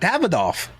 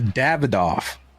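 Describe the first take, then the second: First: The word is said in a happy pitch. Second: The word is said in a flat pitch. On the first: It refers to the Toro cigar. "If you actually say in a happier pitch, you're saying the Toro" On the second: It refers to the double Corona cigar. "that means double Corona"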